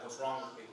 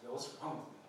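First: Softer, low, sarcastic challenge. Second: Quiet, low, rueful self-reproach; serious way. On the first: Someone defending their lifestyle, sarcastic challenge. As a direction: throw it back defensively with sarcasm. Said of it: "there's a sarcastic way of saying that". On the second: After breaking a promise to himself, quiet rueful self-question. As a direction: ask it of yourself in earnest regret. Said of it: "we can say it in a serious way". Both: Shown as a demonstration.

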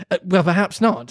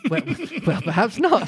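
First: Mildly soothing, composed reply; understated calming tone. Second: Higher, giggly false start; breaking up on the line; laughing. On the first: A narrator's reading. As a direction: placate someone gently. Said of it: "said Alice in a soothing tone". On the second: Real, not acted. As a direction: try to read on through giggles. Breaks up after mouse voice.

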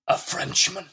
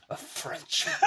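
First: A touch higher, sneering at the word Frenchman; mock disdain. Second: Breathy near-whisper, softer, laughing through "Frenchman"; venomous, imitated. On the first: Friend retelling the housekeeper's line, mild mock disdain. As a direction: scoff lightly at "Frenchman". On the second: Friend imitating the housekeeper sneering at the French, hushed mock venom. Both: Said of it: "and saying it with venom".

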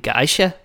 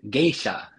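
First: "geisha" said GUY-sha, with a questioning lift; Danish pronunciation. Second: "geisha" said GAY-sha, falling at the end; Japanese pronunciation. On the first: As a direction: Danish "geisha" with an eye vowel. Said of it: "you can hear them in Danish". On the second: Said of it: "So Japanese, this one is". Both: Shown as a demonstration.

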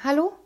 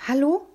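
First: Sharply rising hello to cut in; interrupting. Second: High, rising questioning hello, a touch timid; tentative boy's hello, pitched up at the end. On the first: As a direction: operator trying to get the caller's attention. Operator interrupts the rambling boy. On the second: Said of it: "sagte ich zaghaft". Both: A narrator's reading.

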